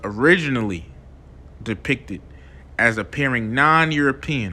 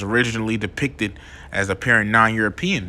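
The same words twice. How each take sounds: First: It is read at a slower pace. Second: It is read at a normal, quicker pace.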